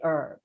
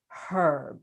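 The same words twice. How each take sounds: First: The word starts with a silent h. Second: The word starts with a pronounced h. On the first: The speaker calls it wrong. "never say herb" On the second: The speaker calls it right. "pronounces it herb"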